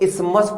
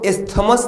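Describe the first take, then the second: First: The middle 'th' sound is left silent. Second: The middle 'th' sound is pronounced. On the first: The speaker calls it right. "इसको इस्मस पढ़ते हैं। ये टीएच silent होता है" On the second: The speaker calls it wrong. "इसको इस्थमस नहीं पढ़ते"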